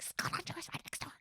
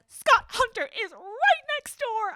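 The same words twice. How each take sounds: First: Hissed stage whisper; acted-out frantic whisper; urgent mock whisper. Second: High, loud, drawn-out imitation; hammed-up high yell of alarm; mock outraged shout. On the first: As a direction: whisper it urgently, as if someone might overhear. Same line re-enacted as urgent whisper. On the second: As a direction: shout it slowly, every word hammered. Acting out an alarmed character's line.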